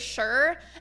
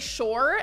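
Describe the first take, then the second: First: The vowel sounds like 'shur'. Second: The vowel sounds like 'shore'. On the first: "for a long time, I would just say sure" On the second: "I don't know why I pronounce it like that. Like, [name], it's not the ocean"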